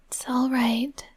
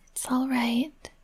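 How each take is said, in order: Both takes have the same delivery.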